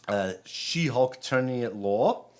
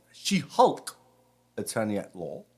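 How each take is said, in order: First: Said in the usual way. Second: British accent. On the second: Shown as a demonstration. Rabbi repeats the show title for his congregation, in a British accent. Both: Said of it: "Say it in my British accent".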